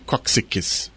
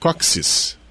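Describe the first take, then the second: First: The ks sound is repeated before the end. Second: The word ends in a plain s sound. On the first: "Não precisa repetir Coxiques" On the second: "a gente pode falar só Coxis"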